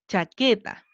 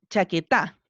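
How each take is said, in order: First: The stress is on the second-to-last syllable. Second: The stress is on the last syllable. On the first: The speaker calls it right. "Vamos con la penúltima" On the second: The speaker calls it wrong. "Probemos en la última"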